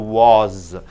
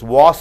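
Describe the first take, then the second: First: The word ends with a buzzing Z sound. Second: The word ends with a hissing S sound. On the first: "S is changed into Z" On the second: "S is changed into Z"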